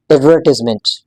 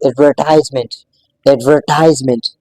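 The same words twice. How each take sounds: First: "एडवर्टाइजमेंट" with a short i, ad-VER-tiz-ment; different pronunciation. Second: "एडवर्टाइजमेंट" with an EYE vowel, ad-ver-TIZE-ment; first pronunciation. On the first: Teacher showing it pronounced differently, short-i pronunciation. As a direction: say "एडवर्टाइजमेंट" with TIZ, not TIZE. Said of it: "But American English में". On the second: Teacher modelling the word before the contrast, TIZE pronunciation. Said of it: "But American English में इसी same word को". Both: Shown as a demonstration.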